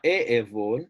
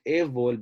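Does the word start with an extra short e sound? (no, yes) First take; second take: yes; no. First: An extra short e sound comes before the word. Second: The word starts directly without an extra vowel. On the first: The speaker calls it wrong. "It's not e evol" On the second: The speaker calls it right. "it's just evol"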